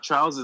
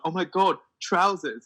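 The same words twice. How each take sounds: First: Said in the usual way. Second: "Oh my God, trousers." with a higher, gushing American imitation; mock amazed American. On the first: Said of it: "And we're like". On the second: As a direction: marvel at "trousers." like an excited American teen. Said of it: "I'm like".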